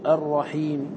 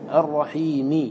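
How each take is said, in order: First: The final i vowel is voiced faintly. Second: The final i vowel is voiced fully. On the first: "فقد أضعفت صوتي بها" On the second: "ها هنا نطقت بالكسرة على حدها"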